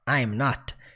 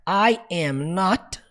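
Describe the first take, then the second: First: The first two words are joined into one. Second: Three separate full words are said. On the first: "também posso abreviar para I'm not" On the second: "Eu posso falar I am not"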